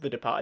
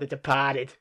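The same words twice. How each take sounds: First: It is said in a plain, everyday accent. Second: It is said in an exaggerated put-on accent. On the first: "the film's not called" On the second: "Ben was just going full Mark Wahlberg"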